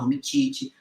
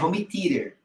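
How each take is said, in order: First: It is pronounced in a garbled, non-English way. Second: It is pronounced the English way. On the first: The speaker calls it wrong. "Muita gente fala Home Theater" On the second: The speaker calls it right. "O nome é Home Theater"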